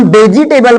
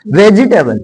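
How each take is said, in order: First: "वेजिटेबल" said as "bejitebal"; odd mispronunciation. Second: "वेजिटेबल" said as "vejitebal"; V, not B, in "वेजिटेबल"; correct pronunciation. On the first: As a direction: start "वेजिटेबल" with B. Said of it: "बोलते हैं तो अजीब लगता है". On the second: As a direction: start "वेजिटेबल" with V. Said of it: "गलत हो जाएगा ना". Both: Shown as a demonstration.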